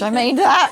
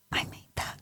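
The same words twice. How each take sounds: First: Louder, laughing mock regret; mock dismay. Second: Hushed, whispered wonder; awed whisper. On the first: Mum once the child wakes, laughing dismay. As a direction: break into a laugh on mock horror. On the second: Retold or imitated. Mum gazing at sleeping child, awed whisper. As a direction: whisper it as if not to wake them.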